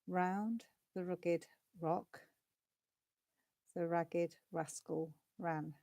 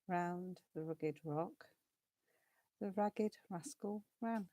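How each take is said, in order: First: It is spoken at a moderately quick pace. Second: It is spoken very quickly. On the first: "we're going to go a little quicker" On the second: "And faster"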